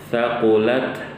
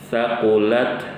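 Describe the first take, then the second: No difference in how they are said.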